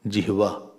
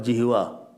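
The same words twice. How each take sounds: First: A half h sound is pronounced in the word. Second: No half h sound is pronounced in the word. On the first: The speaker calls it right. "Half ha is there" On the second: The speaker calls it wrong. "not Jihva"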